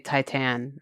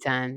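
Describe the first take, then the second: First: The title is pronounced the common English way. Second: The title is pronounced the French way. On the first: This is how many people say it. The speaker calls it wrong. "a lot of people say Titan or something" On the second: This is how it should be said. The speaker calls it right. "it would be Titan"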